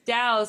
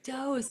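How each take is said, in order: First: The vowel sounds like 'ow', as in house. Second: The vowel sounds like 'oh', as in dose. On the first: The speaker calls it right. "we pronounce it dowsing" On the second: The speaker calls it wrong. "That's why I'm like dose"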